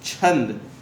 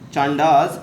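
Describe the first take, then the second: First: It is said as chhand, ending in -nd. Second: It is said as chaan-daas, ending in -daas. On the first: The speaker calls it right. "It's छंद" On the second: The speaker calls it wrong. "It's not चांडास"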